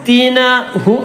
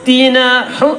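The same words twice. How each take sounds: Both takes have the same delivery.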